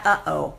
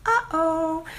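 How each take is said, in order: First: Said in the usual way. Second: Much higher, drawn-out warning uh-oh; ominous uh-oh. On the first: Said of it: "I called the chat". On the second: Shown as a demonstration. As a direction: sound the alarm in two notes.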